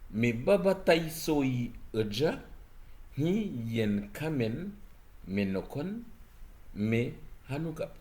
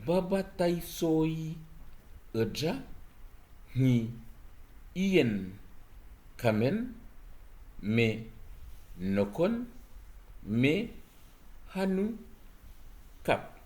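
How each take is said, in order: First: It is read at a faster pace. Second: It is read at a slower pace.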